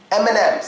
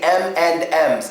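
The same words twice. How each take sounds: First: The word 'and' is reduced to a short 'n'. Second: The word 'and' is said in full. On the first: The speaker calls it right. "We would say M and M's" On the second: The speaker calls it wrong. "In Russia, they say M and M's, and that sounds so funny to me"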